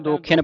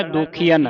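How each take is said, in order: First: ਦੋਖੀਆਂ squeezed, short i after kh; short I misreading. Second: ਦੋਖੀਆਂ with a full ee before "an"; long EE vowel. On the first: Retold or imitated. Teacher quotes how some congregations misread it, ਦੋਖੀਆਂ as "dokhien". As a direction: say ਦੋਖੀਆਂ as "do-khyen". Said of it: "ਪੜ ਜਾਂਦੇ ਨੇ ਸਿਹਾਰੀ ਲਾ ਕੇ". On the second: Shown as a demonstration. Teacher gives the pure pronunciation, ਦੋਖੀਆਂ as "dokhee-an". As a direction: say ਦੋਖੀਆਂ as "do-khee-an". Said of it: "ਪਰ ਸ਼ੁੱਧ ਉਚਾਰਨ ਹੈ".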